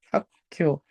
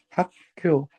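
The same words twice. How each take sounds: The two takes are said the same way.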